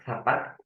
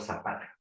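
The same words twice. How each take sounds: First: The first consonant is a lisped th sound. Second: The first consonant is a plain s sound. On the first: "¿Le dices con una Z o con una S?" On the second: "¿Le dices con una Z o con una S?"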